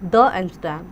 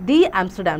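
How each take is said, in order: First: 'The' is pronounced like 'thuh'. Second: 'The' is pronounced like 'thee'. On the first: The speaker calls it wrong. "Not द Amsterdam" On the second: The speaker calls it right. "तो दी Amsterdam"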